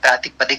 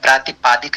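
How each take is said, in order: First: The vowel in the middle syllable is short. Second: The vowel in the middle syllable is long. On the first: The speaker calls it right. "प्रातिपदिक होता है" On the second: The speaker calls it wrong. "प्रातिपादिक नहीं होता है"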